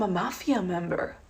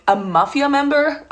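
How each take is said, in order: First: Soft, hushed earnest asking; imitating a curious stranger, softly; earnest question. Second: Higher, rising disbelief; puzzled repeat, pitched up; incredulous echo. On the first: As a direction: ask it softly, as a sincere question. Guy's naive question, then echoed back. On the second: Retold or imitated. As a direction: throw the words back in disbelief. Echoes the question in disbelief.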